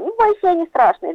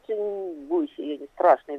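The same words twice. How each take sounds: First: It is said in a light, playful way. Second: It is said in a dark, menacing way. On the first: The listener is amused. "можно так, что, извините, посмеешься" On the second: The listener feels threatened. "и на самом деле ты начинаешь бояться"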